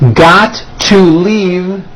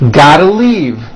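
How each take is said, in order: First: Each word is said separately and in full. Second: The words are squeezed together into a reduced form.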